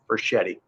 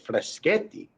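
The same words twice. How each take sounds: First: The name is said with American pronunciation. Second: The name is said with Italian pronunciation. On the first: "I just go with the Americanized version" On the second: "I pronounce Freschetti the Italian, the true way"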